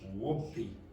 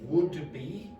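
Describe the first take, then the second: First: The D is dropped and blended into the B. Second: The D is clearly pronounced before the B. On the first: The speaker calls it right. "this will become whoopee" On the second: The speaker calls it wrong. "did I say would be?"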